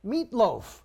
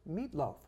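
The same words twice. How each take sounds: First: Meatloaf punched out high and loud; emphatic repeat of Meatloaf. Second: Said in the usual way. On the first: Real, not acted. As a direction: hit Meatloaf hard in comic disbelief, pitched up. Repeats name for comic emphasis.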